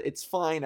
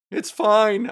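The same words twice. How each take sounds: First: Said in the usual way. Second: High, loud startled yell. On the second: Retold or imitated. Telling viewers about the raccoon, yelling it again. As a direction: shout it at the raccoon. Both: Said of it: "I yelled".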